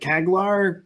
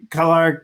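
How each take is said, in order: First: The G sound is pronounced in the name. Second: The G sound is silent in the name. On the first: The speaker calls it wrong. "I was pronouncing it Kaglar" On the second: The speaker calls it right. "somehow the G is silent"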